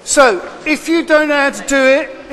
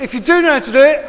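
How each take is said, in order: First: "don't" pushed up and held long; "So if you don't know how to do it" with "don't" stressed. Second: Quick line with "do" lifted on a rise; "do" stressed and rising in a quick aside. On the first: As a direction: lean on "don't" to single out the ones who need help. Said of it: "contrasting who does not know". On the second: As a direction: hit "do" fast to address the ones who already know. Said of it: "contrasting who does know". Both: Real, not acted.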